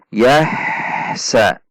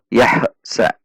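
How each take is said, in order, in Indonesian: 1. Suku katanya mengalir tanpa jeda sama sekali. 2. Suku kata pertama berakhir dengan lepasan yang memantul. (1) "antara sa tidak terputus" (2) "ada juga yang memantul"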